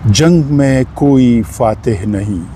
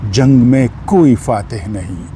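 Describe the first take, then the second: No difference in how they are said.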